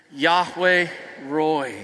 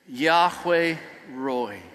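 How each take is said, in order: First: Chanted, slow group "Yahweh Roi", lower; chanted, drawn out together with the crowd; congregation chant. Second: Chanted, slow, lower "Yahweh Roi"; chanted, stretch "Yahweh" out with everyone; congregation chant again. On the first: Chanted, leading the congregation, slow repeated "Yahweh Roi". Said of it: "let's say that together". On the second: Chanted, second group take, slow repeated "Yahweh Roi". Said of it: "Let's do that again". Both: Shown as a demonstration.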